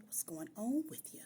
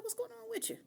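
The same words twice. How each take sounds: First: Said in the usual way. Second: Much higher, innocent questioning tone; high concerned voice. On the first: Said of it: "I just was like". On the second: Retold or imitated. Girlfriend puzzled by her crying boyfriend, high and innocent. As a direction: ask it up high, wide-eyed and puzzled. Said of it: "I was like".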